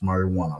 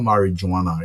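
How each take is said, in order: First: The middle consonant sounds almost like an H. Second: The middle consonant is a hard J sound. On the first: The speaker calls it right. "a soft J ... almost like a H" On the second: The speaker calls it wrong. "It's not marijuana"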